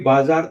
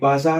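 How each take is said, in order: First: The middle consonant is a J sound. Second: The middle consonant is a Z sound. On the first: The speaker calls it wrong. "बाजार तो है नहीं" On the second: The speaker calls it right. "बाजार है"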